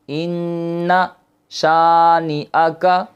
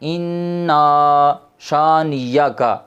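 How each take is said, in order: First: A glottal stop comes before the final 'aka'. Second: A y sound comes before the final 'aka'. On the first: The speaker calls it right. "पढ़ा जाना था शानी आका" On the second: The speaker calls it wrong. "तो ये बहुत गलत है"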